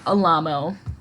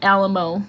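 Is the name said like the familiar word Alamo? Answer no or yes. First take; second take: no; yes. First: It sounds different from the familiar word Alamo. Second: It sounds like the familiar word Alamo. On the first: This is how the name is actually said. The speaker calls it right. "but it's pronounced like Alamo" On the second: This is how the spelling suggests it sounds. The speaker calls it wrong. "it's spelled like Alamo"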